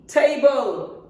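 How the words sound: The t is said like a native English t. The speaker calls it right. "Correct native pronunciation is T"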